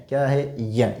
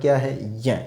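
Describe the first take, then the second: Both takes have the same delivery.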